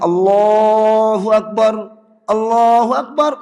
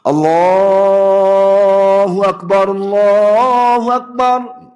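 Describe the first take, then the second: First: The two phrases are separated by a stop. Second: The two phrases are joined without stopping. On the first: The speaker calls it wrong. "nggak boleh" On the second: The speaker calls it right. "Maka harus wasol"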